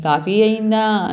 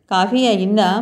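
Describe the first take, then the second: First: Slow, leisurely coffee అయిందా? drawn out like a master of the house; lordly coffee demand. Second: Said in the usual way. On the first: Acted. The stranger lounging in the kitchen doorway asks Shruti about coffee, slow and lordly. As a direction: ask for coffee as if you own the place, slowly. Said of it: "పెద్ద దర్జాగా". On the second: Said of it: "బావ మరదల్ని అడిగినట్లో".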